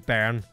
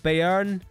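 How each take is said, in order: First: The name is said simply, ignoring the accent. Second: The name is attempted with its accented vowel. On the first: "I'll just say Bern. And pretend I don't see the accent above the E" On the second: "However you'd pronounce that with the accent"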